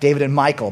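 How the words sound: The name is said like English Michael. The speaker calls it wrong. "Not David and Michael"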